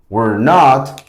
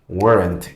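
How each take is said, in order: First: It is said as two full separate words. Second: It is said as one contracted word. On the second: "lo pronunciamos como weren't"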